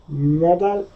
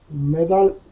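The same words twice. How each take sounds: No difference in how they are said.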